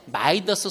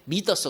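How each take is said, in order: First: The first vowel sounds like 'ai'. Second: The first vowel sounds like 'ee'. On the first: The speaker calls it wrong. "옛날에 마이더스 손이라고 했었죠. 근데 마이더스라고 요새는 안 해. 그게 발음이 틀렸대" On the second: The speaker calls it right. "미더스라고 발음해"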